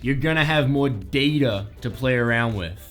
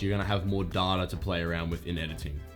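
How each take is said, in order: First: It is said in an American accent. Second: It is said in the speaker's own non-American accent.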